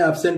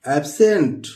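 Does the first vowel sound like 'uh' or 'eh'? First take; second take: uh; eh. First: The first vowel sounds like 'uh'. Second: The first vowel sounds like 'eh'. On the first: The speaker calls it wrong. "एब्सेंट बोलते हैं तो गलत बोलते हैं" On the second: The speaker calls it right. "यहां हम इसको ए पढ़ेंगे"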